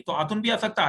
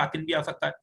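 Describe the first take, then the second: First: آتن said ātun, with u; ending ātun. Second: آتن said ātin, with i; ending ātin. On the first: Teacher to students on the plural ending, ātun. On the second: Teacher to students on the plural ending, ātin. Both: Shown as a demonstration. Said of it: "آتن یا آتن لگانے سے".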